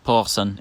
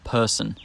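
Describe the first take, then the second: First: The vowel is pulled toward the back of the mouth. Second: The vowel has its usual standard position. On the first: This is how Glaswegians say it. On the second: This is the usual pronunciation.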